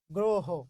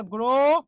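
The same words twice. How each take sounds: First: Said in the usual way. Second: গ্রহ drawn out as "gro... ho"; slow teaching split of গ্রহ with both O sounds held; syllable-by-syllable demonstration. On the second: Shown as a demonstration. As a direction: stretch the O of "gro" in গ্রহ, pause, then "ho". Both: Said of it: "ও করতে হবে".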